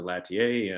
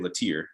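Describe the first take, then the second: First: The name is said the British way. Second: The name is said the North Carolina way. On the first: This is how people abroad defaulted to saying it. "everybody just defaulted to Latier" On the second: This is how people in one home state say it. "North Carolina people say Latier"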